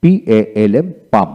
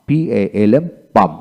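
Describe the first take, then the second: No difference in how they are said.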